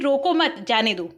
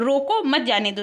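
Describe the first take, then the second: First: There is a pause right after 'mat'. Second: There is a pause right after 'roko'.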